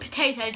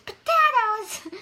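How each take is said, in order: First: The word is said in a normal voice. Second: The word is said in a put-on voice. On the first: "I don't call them potatoes" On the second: "I can only say them in that voice"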